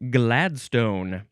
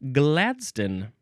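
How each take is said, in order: First: It is said in a non-British pronunciation. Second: It is said in a British pronunciation.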